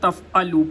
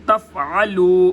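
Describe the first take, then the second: First: The middle consonant is a plain glottal catch. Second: The middle consonant is a deep throat sound. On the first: The speaker calls it wrong. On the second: The speaker calls it right.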